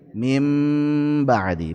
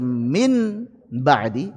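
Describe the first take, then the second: First: The n is changed into an m sound. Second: The n is pronounced fully and clearly. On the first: The speaker calls it right. "Diubah jadi mim" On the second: The speaker calls it wrong. "tidak cocok dibaca min ba'di izhar"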